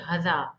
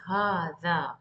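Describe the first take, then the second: First: The first vowel is short. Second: The first vowel is long. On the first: The speaker calls it wrong. "We don't say هذا" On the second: The speaker calls it right. "as if there is an alif here"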